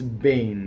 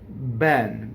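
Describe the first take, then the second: First: It has the Milanese vowel, like Bain. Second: It has the standard open E vowel.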